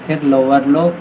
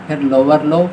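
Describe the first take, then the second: No difference in how they are said.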